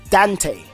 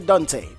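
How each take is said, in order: First: It is said the American way. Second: It is said the speaker's own way. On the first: "I've gone to like the States and they're like Dante" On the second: "So I say Dante"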